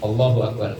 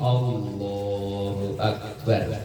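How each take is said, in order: First: The phrase is said short and quick. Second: The phrase is drawn out and lengthened.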